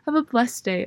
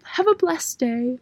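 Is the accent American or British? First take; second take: American; British. First: It is said in the speaker's natural accent. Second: It is said in a put-on British-sounding accent.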